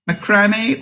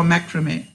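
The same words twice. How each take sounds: First: Macrame stressed on the middle syllable; macrame said muh-KRAH-may; first pronunciation. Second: Macrame stressed on the opening syllable; macrame said MACK-ruh-may; second pronunciation. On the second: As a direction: lead with MACK, light middle in macrame. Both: Shown as a demonstration. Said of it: "One or two in the States".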